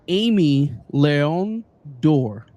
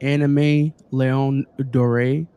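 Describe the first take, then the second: First: The first word is said like Amy. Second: The first word is said like anime. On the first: The speaker calls it right. "Thank you, Wizard" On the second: The speaker calls it wrong. "I'm gonna call it"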